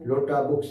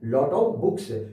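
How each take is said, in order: First: "Lot of" is run together as "lotta". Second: "Of" is pronounced fully as a separate word. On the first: This is the informal way native speakers say it. "इसे अंग्रेज लोग क्या बोलेंगे? ... ये आपकी informal English है" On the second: This is the formal way to say it. "Formal English"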